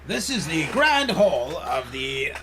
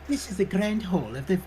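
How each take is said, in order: First: It is said in the speaker's normal voice. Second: It is said in a put-on Mrs. Doubtfire voice.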